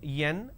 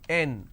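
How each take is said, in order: First: It starts with a y sound. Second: It starts directly with a vowel. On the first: The speaker calls it wrong. "it's pronounced as Yen" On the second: The speaker calls it right. "it's M, N, O"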